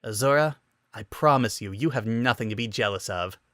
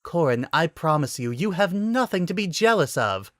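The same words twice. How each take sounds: First: Smirking. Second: Higher, amused promise; gently teasing reassurance; giggling reassurance. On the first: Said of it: "couldn't keep the smirk out of his voice". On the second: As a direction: soothe him through giggles. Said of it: "still giggling". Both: A narrator's reading.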